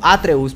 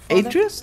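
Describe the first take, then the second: First: The name is said with Spanish pronunciation. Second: The name is said with English pronunciation. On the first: "en español sería como Atreus" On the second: "tal vez en inglés"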